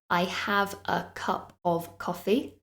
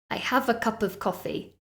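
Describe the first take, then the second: First: The words are said separately, without linking. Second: The words are linked into one word. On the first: The speaker calls it wrong. "So I don't say" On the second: The speaker calls it right. "it sounds like all of those words are becoming one"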